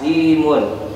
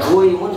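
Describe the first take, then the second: First: The first syllable has an i vowel. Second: The first syllable has a u vowel. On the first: This is the changed form that is easier to say. The speaker calls it right. "Kalau himun itu menjadi mudah dan pantas" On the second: This is the original form before the change. The speaker calls it wrong. "agak sulit ya"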